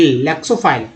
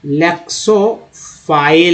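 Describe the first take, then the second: First: Said in the usual way. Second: लेक्सोफाइल drawn out slowly, rising at the end; slow model word. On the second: Shown as a demonstration. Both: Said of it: "teacher models word twice".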